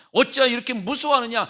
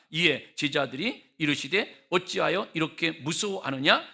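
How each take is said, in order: First: Louder, higher rebuke, hitting "어찌하여"; Jesus rebuking the frightened disciples. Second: Said in the usual way. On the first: Shown as a demonstration. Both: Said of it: "책망하신 말씀 들어보세요".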